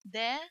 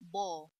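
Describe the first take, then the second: First: The d sound is plain and light. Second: The d sound is deep and heavy.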